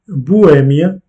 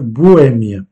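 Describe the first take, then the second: First: Bohème with the stress on the E. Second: Bohème slowly, E stressed; slow stressed repeat. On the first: Teacher shows the stressed E in Bohème, stress on E. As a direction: lean on the E of Bohème. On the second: Teacher repeats the word slowly for learners, stress on E. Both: Shown as a demonstration. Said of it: "l'accentuation est faite sur le E".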